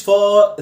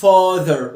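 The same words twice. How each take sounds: First: Father as "fa-THAR", ending lifted; raised ending. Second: Father with a weak, lowered final "er"; stress on first syllable. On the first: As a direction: wrongly push up the "er" in father. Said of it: "ما ترفعش ال إي آر اللي فوق". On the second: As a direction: hit the start of father and drop "ther". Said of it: "اعملها ستريس تحت". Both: Shown as a demonstration.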